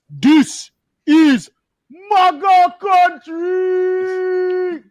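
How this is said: It is said in a Nigerian accent.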